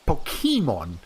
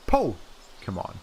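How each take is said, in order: First: The stress is on the middle syllable. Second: The stress is on the first syllable. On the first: This follows the written accent mark. "the actual accent mark is here on the E. If we're being accurate to that pronunciation" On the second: This is how English speakers say it. "The the accented part is right here on the Po"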